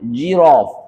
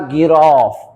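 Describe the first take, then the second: First: It begins with a soft j sound. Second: It begins with a hard g sound. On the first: The speaker calls it right. "هنا الجي عشان بعدها الاي تبقى جيراف" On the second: The speaker calls it wrong. "اوعى تقولها جيراف"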